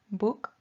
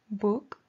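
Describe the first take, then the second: Both takes have the same delivery.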